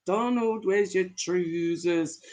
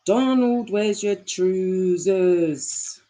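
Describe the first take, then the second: First: Put-on light Scottish accent, drawn out at the end. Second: Hammed-up Scottish accent, very slow and stretched. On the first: Reading a Scottish line to the chat, light Scottish accent. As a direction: try a tentative Scottish lilt. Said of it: "Did I say it in a good Scottish accent?". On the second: Second try for the chat at a drawn-out Scottish accent. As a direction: draw it right out in broad mock Scottish. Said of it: "good Scottish accent? Let me try".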